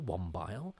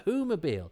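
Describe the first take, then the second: First: It is squeezed into two syllables, 'wom-bile'. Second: It is said as 'who' plus 'mobile'. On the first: The speaker calls it wrong. "I used to think it was called the One Bile" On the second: The speaker calls it right. "oh no, it's Who Mobile"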